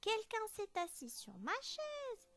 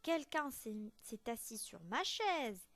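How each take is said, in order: First: It is said in a tiny, small voice. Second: It is said in a medium, middling voice.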